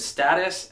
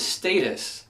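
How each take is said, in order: First: Status said STAT-us; common pronunciation. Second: Status said STAY-tus; precise pronunciation. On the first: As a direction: status with a short a. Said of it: "majority of people pronounce it status". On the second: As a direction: status with a long a. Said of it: "people pronounce it status". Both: Shown as a demonstration.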